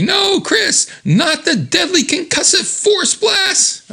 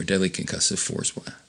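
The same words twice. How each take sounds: First: High, drawn-out cry of dread; dramatic mock shout. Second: Said in the usual way. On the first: Pleading with Chris before his blast, high dramatic shout. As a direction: cry out in melodramatic horror, slow and high.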